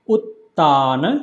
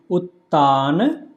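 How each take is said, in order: No difference in how they are said.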